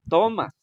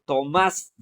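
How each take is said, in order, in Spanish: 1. El acento está en la primera sílaba. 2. El acento está en la segunda sílaba. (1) "la sílaba tónica no está en más, está en to" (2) "la acentuación está en más"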